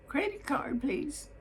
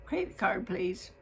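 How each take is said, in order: First: Credit card said much higher and falling, prim; repeated office request. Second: Credit card said crisp and falling, businesslike; polite clerk's routine request; fine office voice. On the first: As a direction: insist politely, pitched up. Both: Retold or imitated. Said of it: "in her fine office voice".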